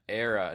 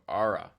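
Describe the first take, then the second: First: The first vowel sounds like 'eh'. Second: The first vowel sounds like 'ah'. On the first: The speaker calls it wrong. "I was calling it Era" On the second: The speaker calls it right. "instead of Ara"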